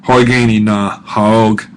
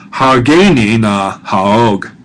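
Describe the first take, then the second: First: "Horgeni" said with hor, slow and careful; corrected pronunciation. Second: "Hageni" said with ha, slow, later corrected; the slip "Hageni", corrected to "Horgeni" right after; mispronounced first try. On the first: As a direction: fix the slip: "Horgeni na haog", hor at the start. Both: Shown as a demonstration. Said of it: "or I should have said".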